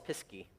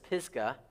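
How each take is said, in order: First: The word ends with a 'key' sound. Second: The word ends with a 'gah' sound. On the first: This is how people in West Virginia say it. "in West Virginia, we would call this Pisky" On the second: This is the usual pronunciation. "I would say you pronounce this Pisgah"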